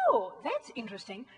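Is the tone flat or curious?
curious. It is said in a curious, interested tone.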